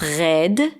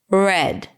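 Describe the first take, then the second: First: The R is a strong throaty sound. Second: The R is a softer, slightly rough sound. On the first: The speaker calls it wrong. "Israeli R ... in a strong position, it was really dominant" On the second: The speaker calls it right. "the R sounded a little dirty"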